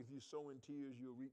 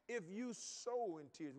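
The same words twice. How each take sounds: First: Said in the usual way. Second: "If you sow in tears" drawn out slowly and louder; emphatic slow quote. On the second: Shown as a demonstration. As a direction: lean on each word of "If you sow in tears".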